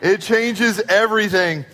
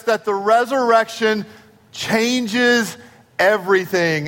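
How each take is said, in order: First: "changes" punched, then "everything" falls away; stress on changes. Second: "resurrection", "changes" and "everything" set apart, each word on its own beat; dramatic pauses. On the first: Pastor repeating the claim to the congregation, leaning hard on "changes". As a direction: run it together and hit "changes". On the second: Pastor to Easter congregation, spacing out "changes" and "everything" with dramatic pauses. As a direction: let a pause hang before "changes" and before "everything". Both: Acted.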